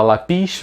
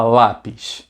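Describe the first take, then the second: First: Lápis with the wrong stress, la-PIS; lápis said as la-PIS, end-stressed. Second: Lápis stressed correctly on LÁ; lápis said as LÁ-pis. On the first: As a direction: punch the last syllable of lápis. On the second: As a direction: punch the first syllable of lápis, let PIS drop. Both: Shown as a demonstration. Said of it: "que é a mais forte".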